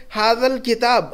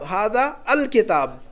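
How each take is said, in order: First: "हादल" as one joined word; article run in. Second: Slow, "अल" standing apart after "हादा"; article separated. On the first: Teacher showing the definite article, slowly joining it in "हादल". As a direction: glide from hada straight into l in "हादल". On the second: Teacher showing where al goes, slowly separating "अल". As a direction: split off and stress "अल". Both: Shown as a demonstration. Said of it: "तो अल लगाएगा".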